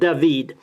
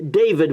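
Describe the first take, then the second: First: The name is said with a Spanish pronunciation. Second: The name is said with an English pronunciation. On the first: "but they pronounce it" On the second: "we would say in English"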